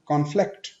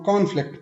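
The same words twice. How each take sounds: First: conflict stressed on फ्लिक्ट, rising; light कॉन, stronger फ्लिक्ट in conflict; second-syllable stress. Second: conflict stressed on कॉन; first-syllable stress. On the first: Teacher shows the verb form, second-syllable stress on conflict. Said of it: "second syllable पे stress". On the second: Teacher shows what not to say, first-syllable stress on conflict. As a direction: put the weight on कॉन in conflict. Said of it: "फिर नहीं बोलेंगे". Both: Shown as a demonstration.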